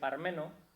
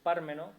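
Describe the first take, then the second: First: The stress is on the second syllable. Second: The stress is on the first syllable. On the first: It sounds folksy and down-to-earth. "sin acento en la A" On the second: It sounds pompous and noble. "con acento en la A"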